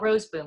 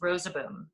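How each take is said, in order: First: The name is said with two syllables. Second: The name is said with three syllables. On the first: The speaker calls it wrong. "It's not Roseboom" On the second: The speaker calls it right. "it has three syllables"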